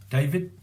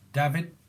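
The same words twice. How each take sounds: The two takes are said the same way.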